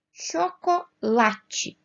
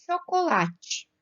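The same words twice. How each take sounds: First: Chocolate very slow, split up, LA stronger; stress on LA. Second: Said in the usual way. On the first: Shown as a demonstration. Teacher showing the strong syllable, Chocolate drawn out with stressed "la". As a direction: break up Chocolate and lean on the "la". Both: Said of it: "o lá é um pouquinho mais forte".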